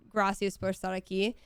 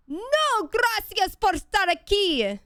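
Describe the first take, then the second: First: Said in the usual way. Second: High, loud, slow furious yell; yelled at the top of her lungs. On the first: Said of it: "my mind was blank except for". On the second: Retold or imitated. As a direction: hurl the phrase at him across the street, drawn out. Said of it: "at the top of my lungs, I yelled".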